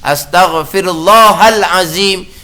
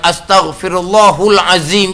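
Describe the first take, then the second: First: The vowel after Allah is an a sound. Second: The vowel after Allah is a u sound. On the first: The name of God is the object of the verb. The speaker calls it right. "Ha tu kena jaga molek tu" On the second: The name of God is treated as the subject. The speaker calls it wrong. "Jangan astaghfirullahul azim ke jangan"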